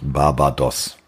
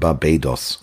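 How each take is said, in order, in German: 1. Der zweite Vokal ist ein einfaches a. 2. Der zweite Vokal ist kein einfaches a. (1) "und nicht Barbados" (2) "es heißt Barbados"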